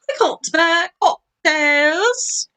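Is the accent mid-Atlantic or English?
English. It is said in an English accent.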